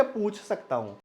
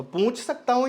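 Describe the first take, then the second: First: Said in the usual way. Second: पूछ said wrongly as पूँछ, nasal ऊ; पूछ with the vowel sent into the nose. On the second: Shown as a demonstration. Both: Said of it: "दोनों में अंतर है ना".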